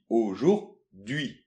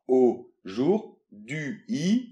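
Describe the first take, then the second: First: It is said faster, with parts run together. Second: It is said slowly, in separate parts.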